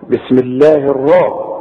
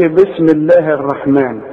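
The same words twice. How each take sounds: First: الراء with a thick, dark "raa"; heavy ra. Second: الرحمن with a thin front "ra", like "reh"; wrong light ra. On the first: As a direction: model الراء full and heavy. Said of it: "كل راء في القرآن مفتوحة فخمها". (الراء مفخمة) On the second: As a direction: mispronounce الرحمن with an unthickened r. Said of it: "فخمها، ما تقولش". (الرحمن براء مرققة غلط) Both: Shown as a demonstration.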